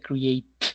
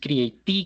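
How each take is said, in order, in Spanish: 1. La palabra termina en t, sin vocal. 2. Se oye un sonido vocálico después de la t final. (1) "Se pronuncia create" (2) "No es creatí"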